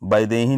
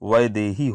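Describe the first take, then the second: First: The word begins with a b sound. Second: The word begins with a v sound. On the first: The speaker calls it wrong. "नहीं होता है ... यहाँ पर ब नहीं होता है" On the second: The speaker calls it right. "होता है ... व होता है"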